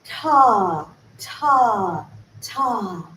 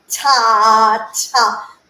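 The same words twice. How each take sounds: First: "Ta" as one relaxed open sound. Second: Loud strained "ta" with clenched jaw; tense clenched ta. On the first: Teacher showing the right relaxed "Ta". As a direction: let "Ta" flow open, no clench. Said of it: "think about it as one". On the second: Showing the wrong tense way, strained "ta". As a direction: push "ta" out with a tight jaw. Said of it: "If we're like". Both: Shown as a demonstration.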